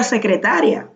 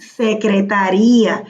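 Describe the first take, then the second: First: "secretaria" stressed on TA, ending in a quick -ria; unaccented secretaria. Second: "Secretaría" stressed on the I, -RÍ-a split in two; accented secretaría. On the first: Teacher corrects student's word, "secretaria" stressed on TA. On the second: Teacher corrects student's word, "Secretaría" stressed on RÍ. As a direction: land on the long I of "Secretaría". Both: Shown as a demonstration. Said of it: "si lleva acento, no sería secretaria".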